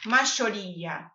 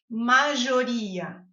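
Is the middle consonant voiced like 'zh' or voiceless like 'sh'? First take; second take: sh; zh. First: The middle consonant is a voiceless sh sound. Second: The middle consonant is a voiced zh sound. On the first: "com mais sotaque, como dos argentinos" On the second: "Vai treinando com o som de J mesmo"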